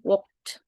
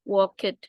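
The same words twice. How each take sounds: First: The ending is a short t sound. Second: The ending is an extra 'ed' syllable. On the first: The speaker calls it right. "Tapi dibacanya tuh walked" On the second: The speaker calls it wrong. "Ini kan bukan dibacanya walked, bukan"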